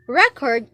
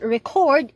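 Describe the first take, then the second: First: The stress is on the first syllable. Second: The stress is on the second syllable. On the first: It names a collection of information. "Record means a collection of related items of information" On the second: It names the act of keeping information. "record is an act of keeping information"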